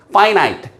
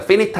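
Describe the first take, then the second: First: "finite" said as FY-nite; correct finite pronunciation. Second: "finite" said as FEN-it; mispronounced finite. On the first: Teacher shows students the correct "finite", said FY-nite. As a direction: say "finite" with two long I sounds. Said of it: "finite 아니고 finite입니다". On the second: Teacher warns students with the wrong "finite", said FEN-it. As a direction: say "finite" with short vowels, like "fennit". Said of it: "자, 발음 조심하세요". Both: Shown as a demonstration.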